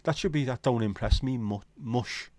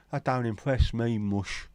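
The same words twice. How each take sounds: First: Said in the usual way. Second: Slow sung Cockney line, mush drawn out; Cockney accent. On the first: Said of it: "And sang in a Cockney accent". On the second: Retold or imitated. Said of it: "And sang in a Cockney accent, done by [name] and [name]".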